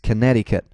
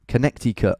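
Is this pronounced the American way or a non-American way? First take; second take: American; non-American. First: It is said the way Americans say it. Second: It is said in a non-American way. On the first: This is how Americans say it. "when I hear actual Americans say it" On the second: This is how the speaker has always said it. "I've always called it"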